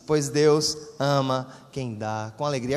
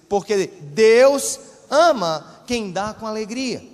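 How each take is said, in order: First: It is said with ordinary, moderate emphasis. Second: It is said with stronger, more forceful emphasis.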